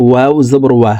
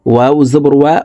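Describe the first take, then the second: No difference in how they are said.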